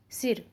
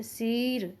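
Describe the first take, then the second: First: Said in the usual way. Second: "सिर" mispronounced with a long drawn-out ee, "seeer"; wrong long vowel. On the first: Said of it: "उनको इस तरह से बोलते". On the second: Shown as a demonstration. Teacher showing students how not to say it, "सिर" with long ee. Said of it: "सिर करके नहीं बोलेंगे हम".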